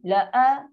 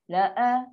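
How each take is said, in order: First: The first vowel is short, then a glottal stop. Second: The first vowel is short, then a glottal stop.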